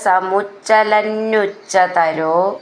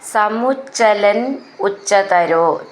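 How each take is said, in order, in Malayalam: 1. രണ്ടു വാക്കുകളും ചേർന്ന് ഒരു വാക്കായി പറയുന്നു. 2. രണ്ടു വാക്കുകളും വേറെ വേറെയായാണ് പറയുന്നത്, ചേർക്കാതെ.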